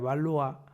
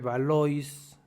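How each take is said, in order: First: It is said the French way, ending "-wa". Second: Every letter is read as it is spelled. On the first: "supongo que se pronuncia Valois" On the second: "se escribe Valois"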